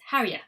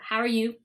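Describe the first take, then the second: First: The words run together with a weakened vowel. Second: Every word is said fully and clearly. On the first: "the weak form or reduced form" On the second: "the strong form"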